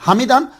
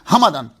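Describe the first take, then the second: First: The vowel after the m is an e sound. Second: The vowel after the m is an a sound. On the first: "मीम के नीचे जेर" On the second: "मीम के ऊपर जबर"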